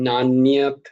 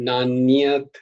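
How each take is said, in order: The two takes are said the same way.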